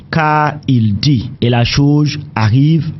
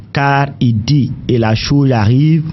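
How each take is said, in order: Both takes have the same delivery.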